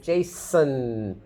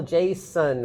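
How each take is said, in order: First: "Jason" as JAY-snnn, no vowel before the n; syllabic N. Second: "Jason" as JAY-sun, with a vowel before the n; separate vowel. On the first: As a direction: go slowly from s straight into a held n in "Jason". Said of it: "N takes the place of a vowel". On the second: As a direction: give "Jason" a clear schwa in its second syllable. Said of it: "Can you hear a separate vowel". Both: Shown as a demonstration.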